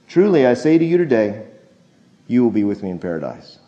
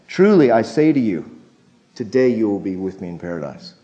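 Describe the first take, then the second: First: The pause comes after the word 'today'. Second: The pause comes before the word 'today'. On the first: The promise is being made on that day. "It's the comma" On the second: Paradise will happen on that same day. "here's the way we say it. See if you can catch the nuance"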